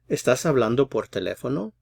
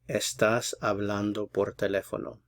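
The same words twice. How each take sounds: First: The voice rises a little toward the end. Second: The voice does not rise at the end. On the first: It asks what someone is doing. "It rises a little bit towards the end in a question" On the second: It states what someone is doing. "this is a statement"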